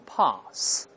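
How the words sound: It is said with a British accent. "英国人读成pass"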